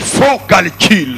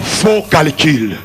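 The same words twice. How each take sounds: First: The phrase is said much more loudly. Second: The phrase is said at normal loudness.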